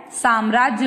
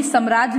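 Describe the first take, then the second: First: "साम्राज्य" with long first a, "saam-raajya"; correct pronunciation. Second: "साम्राज्य" with short first a, "sam-raajya"; wrong pronunciation. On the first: Teacher saying what to say, correctly pronounced. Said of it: "बोलना है". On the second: Teacher warning never to say this, mispronounced. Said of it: "नहीं बोलना है". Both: Shown as a demonstration.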